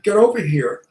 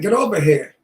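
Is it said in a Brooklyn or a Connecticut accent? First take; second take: Connecticut; Brooklyn. First: It is said in a Connecticut accent. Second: It is said in a Brooklyn accent.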